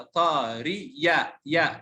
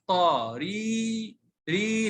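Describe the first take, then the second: First: طا ري يا with short ري and a separate "ya"; wrong reading. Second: طا ري with "ee" held long. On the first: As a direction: mistakenly sound out يا as its own syllable. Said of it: "ما ينفع إن أقرأ هذا". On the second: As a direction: stretch the vowel in ري, no separate "ya". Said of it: "مد بالياء". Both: Shown as a demonstration.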